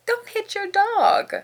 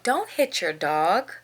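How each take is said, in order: First: Very high, slow, drawn-out plea; exasperated high repeat for emphasis; high-pitched plea. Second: Slow, deliberate plea with a rising end; measured, drawn-out instruction; slow warning. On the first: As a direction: plead in a squeaky raised voice, falling at the end. Repeats plea, far higher. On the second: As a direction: spell it out slowly for the listener. Repeats plea, first take low. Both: Real, not acted.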